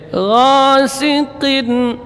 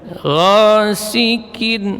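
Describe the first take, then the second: First: The middle consonant sounds like a deep q. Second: The middle consonant sounds like a front k. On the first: The speaker calls it right. "Tetap makhrajnya pada pangkal lidah" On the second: The speaker calls it wrong. "berpindah ke kaf, maka ini satu kekeliruan"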